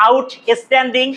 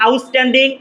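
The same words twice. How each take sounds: First: "outstanding" split as "out-es-tanding"; wrong pronunciation. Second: OUTSTANDING as "aus-tanding", unaspirated t; correct pronunciation. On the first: Teacher showing students what not to say, mispronounced. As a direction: break "outstanding" into out, then es-tanding. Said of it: "not outstanding". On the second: Teacher showing students how it is pronounced, correct pronunciation. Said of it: "উচ্চারণটা হচ্ছে". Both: Shown as a demonstration.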